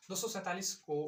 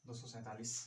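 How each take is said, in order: First: दो सौ सैंतालीस said louder and higher, weight on सौ; teacher's raised emphatic repeat. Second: Number read softly to the board; quiet, offhand read of the number; quiet first reading. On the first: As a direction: announce दो सौ सैंतालीस to the class with a firm fall. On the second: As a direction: softly say दो सौ सैंतालीस as if writing it down. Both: Shown as a demonstration. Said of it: "जैसे".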